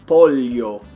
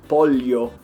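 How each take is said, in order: The two takes are said the same way.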